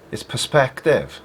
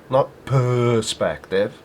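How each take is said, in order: First: Perspective said plainly, stress on second syllable; normal pronunciation. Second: Perspective drawn out with a stressed E; mocking his pronunciation. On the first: Shown as a demonstration. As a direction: say perspective the usual English way. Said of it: "Why does he put so much emphasis on the E?". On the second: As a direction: slowly imitate his perspective with the E leaned on. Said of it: "so much emphasis on the E".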